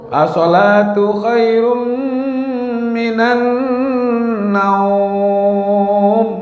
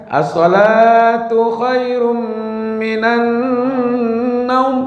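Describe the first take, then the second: First: The final word naum is long, eastern Indonesian style. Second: The final word naum is short, Makkah style.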